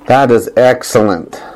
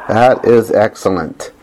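Both takes have the same delivery.

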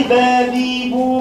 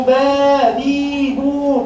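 First: با، بي، بو with short a, i, u vowels; short-vowel spelling drill. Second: با، بي، بو with held long a, i, u; long-vowel spelling drill. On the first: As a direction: recite با، بي، بو as short open syllables on a level tone. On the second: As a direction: stretch each vowel in با، بي، بو on a level tone. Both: Shown as a demonstration. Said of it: "اذكري حرف من الحالات العشرين".

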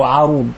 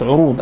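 First: عروض said 'arood, short "a" after the ayn; variant with fatha. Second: عروض said 'urood, short "u" after the ayn; rounded first vowel in عروض, "'u-rood"; variant with damma. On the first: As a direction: open first vowel in عروض, "'a-rood". (عروض بفتح العين) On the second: (عروض بضم العين) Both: Shown as a demonstration. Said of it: "سميت عروض أو عروض".

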